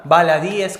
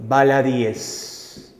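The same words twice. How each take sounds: First: Said in the usual way. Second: Baladíes drawn out very slowly, syllable by syllable, stressed í; slow, spelled-out plural. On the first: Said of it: "¿De acuerdo?". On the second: Shown as a demonstration. Teacher dictating the plural baladíes to students, very slow. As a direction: stretch out baladíes slowly so each syllable lands. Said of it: "la única forma de plural que me va a aceptar es".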